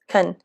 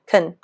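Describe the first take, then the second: First: The vowel is reduced to a weak sound. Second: The same.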